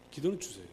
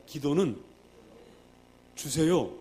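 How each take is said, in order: First: Said in the usual way. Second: Loud call-and-response line; louder, leading the congregation to repeat; proclaimed for the crowd to echo. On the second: Shown as a demonstration. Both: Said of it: "따라하십니다".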